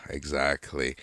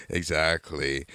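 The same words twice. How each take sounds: The two takes are said the same way.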